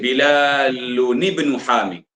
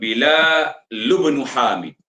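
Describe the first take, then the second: First: An 'n' sound is added before 'ibnu'. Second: No 'n' sound is added before 'ibnu'. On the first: The speaker calls it wrong. "tak perlu kita baca dengan nun kecil" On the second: The speaker calls it right. "Jadi kita buat bila lubnu hamid"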